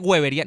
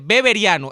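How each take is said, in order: First: The word begins with a W sound. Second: The word begins with a B sound. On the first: The speaker calls it wrong. "hay gente que dice weberiano, no, es una grosería" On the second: The speaker calls it right. "es con B, dice beberiano"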